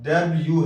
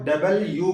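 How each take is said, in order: First: It is said shortened as one blended word. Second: It is said fully as two separate words. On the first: The speaker calls it right. "सही तलफ़ुज़ डब्ल्यू है" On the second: The speaker calls it wrong. "कुछ लोग इसको डबल यू कहते हैं"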